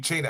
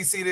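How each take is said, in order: First: The name begins with a 'ch' sound. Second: The name begins with an 's' sound. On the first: This is the original family pronunciation. "the actual would be" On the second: This is the common way to say it. "you can say Cena"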